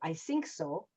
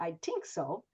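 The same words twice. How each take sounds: First: The word 'think' starts with an s sound. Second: The word 'think' starts with a t sound. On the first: "sometimes people have an S or a Z instead of a T H" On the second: "sometimes we get a T or a D"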